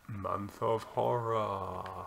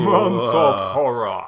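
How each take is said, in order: First: It is said flatly, without much energy. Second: It is said enthusiastically in a booming voice.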